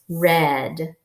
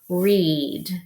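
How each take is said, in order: First: It is said with the past-tense pronunciation. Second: It is said with the present-tense pronunciation. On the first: The action already happened. "the second way is past tense, already happened, and it is read" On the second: The action has not happened yet. "the first way we'll um, practice will be read"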